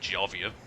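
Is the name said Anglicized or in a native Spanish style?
Anglicized. The name is Anglicized, with no final r. The speaker calls it wrong.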